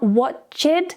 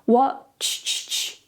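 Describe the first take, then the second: First: The ending adds an extra 'id' syllable. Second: The ending is a single 't' sound. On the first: The speaker calls it wrong. "So not watched. We're not going to add the extra id" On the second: The speaker calls it right. "the ed becomes a t sound"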